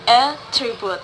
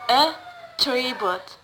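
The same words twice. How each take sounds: First: Attribute hit loud on AT; AT-tribute, weight on the opening syllable; stress on first syllable. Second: Attribute drawn out slowly, TRI stressed; slow at-TRI-bute, weight on the middle; stress on second syllable. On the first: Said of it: "word stress in the first syllables". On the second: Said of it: "stress falls on the second syllables". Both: Shown as a demonstration.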